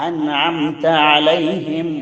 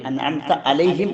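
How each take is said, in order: First: Slow careful അൻഅംത അലൈഹിം with the proper ain; drawn-out correct അൻഅംത അലൈഹിം; correct pronunciation. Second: അൻഅംത അലൈഹിം said carelessly, the wrong way; wrong pronunciation. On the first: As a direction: recite അൻഅംത അലൈഹിം slowly with a clear ain. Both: Shown as a demonstration. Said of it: "എന്ന് വായിക്കരുത്".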